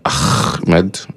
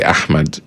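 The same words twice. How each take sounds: First: The h sound is a harsh, forceful ha. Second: The h sound is a soft breathy throat sound. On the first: The speaker calls it wrong. "they actually make it like a ha sound" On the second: The speaker calls it right. "which is not really Ahmed"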